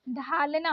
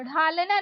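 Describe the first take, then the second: First: ढालना opening on aspirated DH; correct stopped ढ. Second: ढालना opening on flapped ढ़; wrong flapped ढ़. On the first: Teacher correcting learners, stopped ढालना. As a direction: start ढालना with firm ढ. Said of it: "होता है". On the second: Teacher showing learners the mistake, flapped ढालना. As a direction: flick into ढालना. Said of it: "नहीं होता है". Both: Shown as a demonstration.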